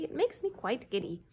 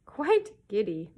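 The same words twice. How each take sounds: First: Said in the usual way. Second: Slow, louder chorus echo; courtiers echoing. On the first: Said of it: "he added irritably". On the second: Acted. Courtiers echoing the king, slow and louder. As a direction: parrot the king in unison. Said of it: "echoed all the courtiers".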